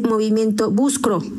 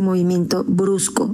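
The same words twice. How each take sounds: First: The consonant sounds of the phrase are swapped. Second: The consonant sounds are in the normal order. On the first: The speaker calls it wrong. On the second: The speaker calls it right. "en lugar de decir"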